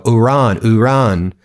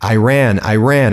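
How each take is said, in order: First: "Iran" said as ee-RAHN, with a long open A; louder, higher "Iran" as ih-RAHN, showing it off; corrected pronunciation of Iran. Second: "Iran" said as eye-RAN, with a flat A; old pronunciation of Iran. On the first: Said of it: "and now I go". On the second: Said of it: "he knows how to pronounce Iran". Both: Retold or imitated.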